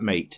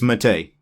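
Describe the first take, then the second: First: It is pronounced the English way. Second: It is pronounced the Italian way. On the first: The speaker calls it wrong. "in the English language, M A T E is mate" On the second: The speaker calls it right. "this is actually Mate in Italian"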